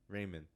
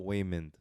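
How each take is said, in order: First: Said in the usual way. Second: "Waymond" with a W in place of R; accented R as W. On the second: Shown as a demonstration. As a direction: open "Waymond" on a rounded W. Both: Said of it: "Do you say Raymond or do you say Waymond".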